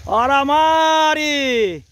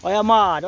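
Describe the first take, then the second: First: Slow, louder, rising "Olha a Mari"; drawn-out call. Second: Said in the usual way. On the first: Real, not acted. Man cheering on his cousin Mari, slow and loud.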